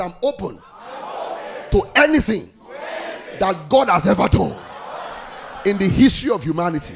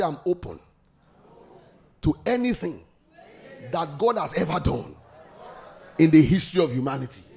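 First: "open", "anything", "God" and "humanity" all shouted much louder. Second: Said in the usual way. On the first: Real, not acted. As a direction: belt it out as the congregation. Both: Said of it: "You didn't say it loud".

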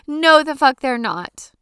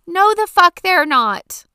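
First: Yelled rant again. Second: Yelled rant. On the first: Repeats the rant line. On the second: Ranting about cleaning toilets. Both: Real, not acted.

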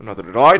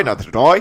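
First: Said in the usual way. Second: I said like oi, lightly Australian; Australian-tinged echo. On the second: Acted. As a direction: repeat it with an Aussie I. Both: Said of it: "Murdoch is Australian, so I went somewhere in that direction".

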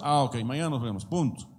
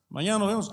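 First: Said in the usual way. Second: Higher, emphatic mock promise; overeager promise. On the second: Shown as a demonstration. Preacher demonstrates an overdone promise to the congregation. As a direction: insist a bit too hard. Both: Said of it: "que tu sí sea sí".

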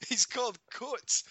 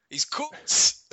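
First: Coates said slowly the Scottish way; slow, deliberate Scottish Coates; Scottish accent, slow and careful; Scottish pronunciation. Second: Higher and louder English accent mocking Coates; English accent, hammed-up; mock English commentator. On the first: Shown as a demonstration. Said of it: "probably says it in his country". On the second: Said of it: "English commentators calling".

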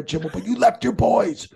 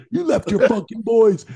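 First: Much higher voice, stressing left; pitched-up jab, leaning on "left"; mock reproach. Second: Put-on much higher, louder repeat of "You left your fucking boys"; mock shout. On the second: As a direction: hammer the accusation home louder. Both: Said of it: "just stopped and looked at him".

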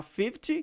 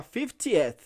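First: Said in the usual way. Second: "fiftieth" with an added, audible "eth" at the end; clear -eth ending. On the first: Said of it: "Em vez de falar". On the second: Shown as a demonstration. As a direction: contrast it by finishing "fiftieth" on E plus TH. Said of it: "você vai falar".

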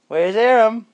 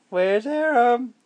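First: High, loud sing-song question; playful baby talk. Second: Slow, drawn-out high question; slow teasing baby talk. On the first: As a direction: tease the baby where he's hiding. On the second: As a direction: stretch it out to build suspense. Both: Acted. Peekaboo game with baby.

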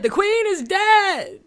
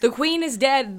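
First: Higher, louder, slow proclamation; dramatic announcement. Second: Louder mock announcement; dramatic announcement. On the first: Acted. Opening the podcast with a slow hammed-up proclamation. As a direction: drag it out like a town crier. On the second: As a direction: declare it like breaking news. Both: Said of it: "this is what I'm opening with".

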